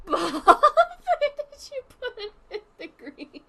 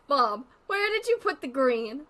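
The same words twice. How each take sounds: First: High, slow whining question; whiny drawn-out plea. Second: Said in the usual way. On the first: Pretend. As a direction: stretch it out like a pleading child. Asking again, exaggerated.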